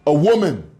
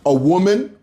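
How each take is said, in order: First: "A woman." falling, final and dismissive; flat answer. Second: "A woman?" rising as a scornful question; incredulous question. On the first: Answering his own question, falling "A woman.". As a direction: answer "A woman." with a firm drop. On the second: Mocking her husband's indifference, rising "A woman?". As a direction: ask "A woman?" with a sharp upward tune. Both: Shown as a demonstration.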